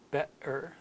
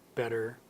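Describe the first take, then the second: First: The middle consonant is a glottal stop. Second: The middle consonant is a quick D sound. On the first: This is how a Cockney speaker says it. "it's a stop of the voice" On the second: This is how Americans say it. "We turn it into almost a D sound"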